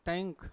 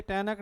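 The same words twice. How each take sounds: First: टैंक with ng closing straight into k; correct nasal pronunciation. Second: टैनक said as tae-nak, with a clear n and an extra vowel; wrong split pronunciation. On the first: Teacher giving class the right form, nasal ng. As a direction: say टैंक as taink, one syllable with a nasal. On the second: Teacher showing class the wrong way, split tae-nak. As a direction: demo the mistake: टैनक in two beats. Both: Shown as a demonstration. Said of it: "ये टैनक नहीं है".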